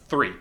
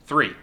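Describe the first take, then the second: No difference in how they are said.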